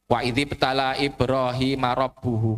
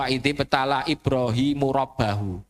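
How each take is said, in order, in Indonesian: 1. Kata terakhir diucapkan dengan vokal 'u'. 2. Kata terakhir diucapkan dengan vokal 'a'. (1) "kan harusnya begitu" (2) "Ini yang uji dari Ibrahim. Ibrahim menguji Allah loh. Salah"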